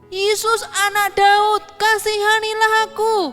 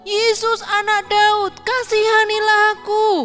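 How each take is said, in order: The two takes are said the same way.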